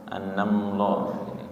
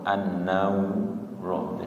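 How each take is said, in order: First: The lips close together on the l sound. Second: The lips round, adding a w sound. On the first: "Kadang malah ada yang nutup" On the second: "bibirnya ikut, jadi suaranya tidak jelas lamnya karena bercampur dengan wawu"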